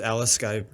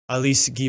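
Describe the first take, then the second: First: The name is pronounced with English sounds. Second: The name is pronounced with French sounds. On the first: The speaker calls it wrong. "allegedly have been pronouncing this wrong" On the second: The speaker calls it right. "if you're going to pronounce it all French"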